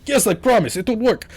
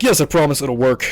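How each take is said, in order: First: Put-on a light Russian accent, pitched high; mock Russian-accented promise, lightly done. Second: Said in the usual way. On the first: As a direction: mimic the agent with a half-hearted Russian accent. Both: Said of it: "Why is he Russian?".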